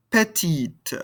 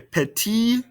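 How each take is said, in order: First: "Petite" falling onto a clearly released T; sounded final T. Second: "Petit" pitched high, ending on the vowel; silent final T. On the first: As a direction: let the T at the end of "Petite" be heard. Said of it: "pronounce this ending consonant". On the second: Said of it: "we don't pronounce the ending consonant". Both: Shown as a demonstration.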